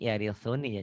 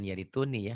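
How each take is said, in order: First: The consonant before 'uni' is a soft th sound. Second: The consonant before 'uni' is a plain t sound. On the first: The speaker calls it right. "Yarithuni yarithuni ya" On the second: The speaker calls it wrong. "bukan yarituni ya"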